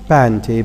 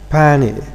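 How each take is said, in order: First: The t after the n is pronounced. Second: The t after the n is dropped. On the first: "not panty" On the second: "the way native speakers pronounce it"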